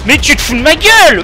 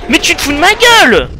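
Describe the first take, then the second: First: High furious shout; raging gamer. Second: Even higher furious shout; raging gamer. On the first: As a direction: yell it in disbelief. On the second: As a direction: scream it again, louder in pitch. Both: Real, not acted. Repeats outraged line.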